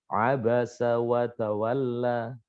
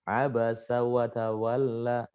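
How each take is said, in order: Both takes have the same delivery.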